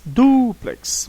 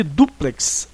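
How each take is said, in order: First: DUplex, with DU held long and high; stress on first syllable. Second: Said in the usual way. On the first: Shown as a demonstration. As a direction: lean hard on the DU of "duplex". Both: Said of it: "O du é a sílaba tônica".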